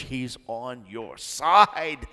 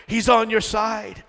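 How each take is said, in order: First: Said in the usual way. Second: Higher, louder, slower insistence; louder emphatic. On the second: Acted. Preacher repeating to the church, louder and insistent. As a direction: drive it home with force. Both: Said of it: "repeated louder".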